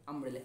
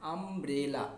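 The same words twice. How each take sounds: First: Said in the usual way. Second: umbrella split into three drawn-out parts, আম, ব্রে, লা; broken into syllables. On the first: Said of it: "এই যে আমব্রেলাটাকে ভেঙে". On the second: Shown as a demonstration. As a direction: say umbrella syllable by syllable, as if teaching spelling. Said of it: "ভেঙে, ভেঙে, ভেঙে উচ্চারণ করি".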